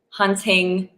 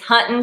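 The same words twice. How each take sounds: First: The word ends with a full 'ng' sound. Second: The word ends with a plain 'n' sound. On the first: "you will never hear someone say hunting" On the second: "there's no G's at the end of any words"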